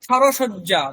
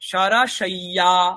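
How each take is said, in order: First: The middle consonant is a doubled 'j' sound. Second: The middle consonant is a doubled 'y' sound. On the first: This is the everyday Bengali pronunciation. "বাংলাতে বলবেন তখন শয্যা বলতে পারেন" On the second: This is the pronunciation used in Sanskrit sentences. "সংস্কৃত বাক্যে ... বলবো সরসইয়া"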